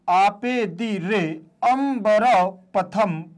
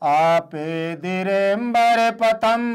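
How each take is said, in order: First: The vowel of ambar is said as a separate syllable. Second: The vowel of ambar merges into the previous word. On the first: "यहां पर मैंने अंबर का आ आपको अलग से उच्चारण कर दिया है" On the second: "जब एक साथ पढ़ेंगे तब इसका हम उच्चारण आ का नहीं करेंगे"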